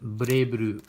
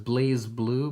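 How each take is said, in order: First: The first word is said as 'Bray', with r. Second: The first word is said as 'Blaze', with l and z. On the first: This is how the makers say it. "They pronounce it Bray Blue" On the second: This follows the written spelling. "I know it says Blaze Blue"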